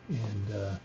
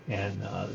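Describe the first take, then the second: The two takes are said the same way.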